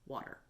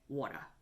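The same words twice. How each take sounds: First: It is said in a standard American accent. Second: It is said in a New York accent. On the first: "the correct way to pronounce the word water is water" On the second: "if you are my mother or any of my relatives from New York, you would say water"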